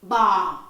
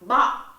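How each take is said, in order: First: Low tone, falling smoothly downward. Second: Low tone, short and abruptly cut off. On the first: "This is a huyền. Down" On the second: "So we also have a dot"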